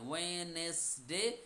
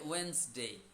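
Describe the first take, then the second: First: It is said with three syllables. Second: It is said quickly with two syllables.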